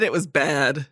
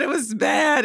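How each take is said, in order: First: Said in the usual way. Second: Exclaiming. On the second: Real, not acted. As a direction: belt out how bad it was. Groaning over a bad film accent.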